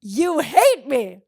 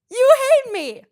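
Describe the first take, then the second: First: Slow, loud, drawn-out accusing; dramatic mock accusation. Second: High, loud sung-out accusation; shrill theatrical wail; mock shriek. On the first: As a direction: drag it out in mock outrage. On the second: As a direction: hit it way up high for comedy.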